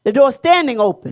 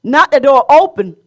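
First: "standing" carries the weight, "open" falls away; stress on STANDING. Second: "open" carries the weight; stress on OPEN. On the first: Preacher correcting the reading for listeners, stress on "standing". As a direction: lean on the word "standing". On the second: Preacher setting aside the wrong reading, stress on "open". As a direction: land firmly on "open". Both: Shown as a demonstration. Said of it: "not the door open, the door standing open".

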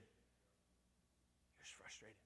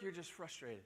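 First: Slow breathy whisper; whispered aside, drawn out. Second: Said in the usual way. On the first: Shown as a demonstration. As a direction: drop to a whisper on the repeat.

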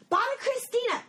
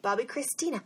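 First: BOBBY CHRISTINA in a high, hammed-up cry; exaggerated name call. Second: Said in the usual way. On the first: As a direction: shoot the pitch way up on Bobby Christina.

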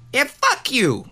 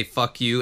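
First: Higher, crisp tough-guy "Yeah, fuck you."; a half-hearted Pesci "fuck you"; Joe Pesci voice. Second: Said in the usual way. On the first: Shown as a demonstration. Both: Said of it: "I wish I could speak like Joe Pesci".

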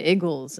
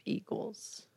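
First: "Eagles" said as "iggles"; short i at the start of "Eagles"; Philly "Eagles". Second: Said in the usual way. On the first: Shown as a demonstration. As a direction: rhyme "Eagles" with "giggles". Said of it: "they say Eagles instead of Eagles". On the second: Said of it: "instead of Eagles".

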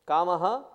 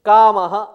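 First: Said in the usual way. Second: Loud recited term, firmly announced; emphatic recitation. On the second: Shown as a demonstration. Teacher reciting a Sanskrit term to students, emphatic recitation.

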